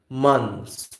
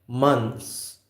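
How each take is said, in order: No difference in how they are said.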